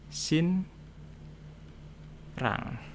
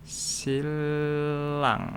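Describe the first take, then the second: First: The middle is an n followed by an r. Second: The middle is a single l sound. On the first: "secara tulisan tulisannya" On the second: "N-nya ... akan berubah menjadi L. Jadi dibacanya"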